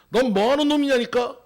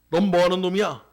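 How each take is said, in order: First: Higher, raised-voice interrogation; shouted demand. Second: Said in the usual way. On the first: Acted. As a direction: bellow it like an impatient soldier questioning a captive. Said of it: "이렇게 소리 지릅니다". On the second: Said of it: "공산당원이 이렇게 얘기합니다".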